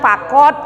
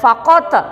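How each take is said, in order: First: The final consonant is plain with no bounce. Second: The final q has a light echoing bounce. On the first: The speaker calls it wrong. "nggak boleh bilang fakot gitu aja nggak boleh" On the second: The speaker calls it right. "ini bacanya harus kolkolah ya nak"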